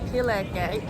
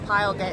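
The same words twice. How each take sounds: First: Pile is said the local way, unlike English. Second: Pile is said like the English word pile. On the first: The speaker calls it right. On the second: The speaker calls it wrong.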